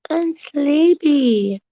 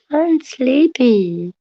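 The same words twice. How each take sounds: First: Very slow, higher, falling on sleepy; drawn-out sleepy. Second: Slow sleepy. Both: Shown as a demonstration. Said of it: "I'm sleepy repeated slower".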